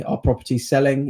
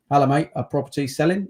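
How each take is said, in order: First: Said in the usual way. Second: Quick mock Australian gym mate; Australian accent. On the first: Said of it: "I did that accent". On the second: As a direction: toss it off in a jokey Australian accent. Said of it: "I don't know why I did that accent".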